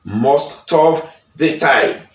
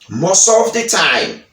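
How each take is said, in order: First: The t in most is clearly sounded. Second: The t in most is dropped and linked. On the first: This is the British way. "Britannik yo di most of the time" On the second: This is the American way. "Yo pa prononse te a. Yo di most of. Yo fe liaison"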